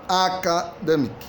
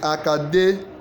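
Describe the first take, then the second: First: The stress is on the first syllable. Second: The stress is on the third syllable. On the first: The speaker calls it wrong. "Is it in the first letter? Ac" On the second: The speaker calls it right. "The answer is academic. Demic. C is the correct stress"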